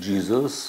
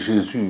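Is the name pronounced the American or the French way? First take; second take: American; French. First: The name is pronounced the American way. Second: The name is pronounced the French way. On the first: "en Amérique, c'est Jesus" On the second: "on dit Jésus"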